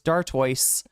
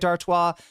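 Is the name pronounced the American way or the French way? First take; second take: American; French. First: The name is pronounced the American way. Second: The name is pronounced the French way. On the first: The speaker calls it wrong. "which would be the American pronunciation of it" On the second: The speaker calls it right. "pronounced it with a with a French uh, in a French way"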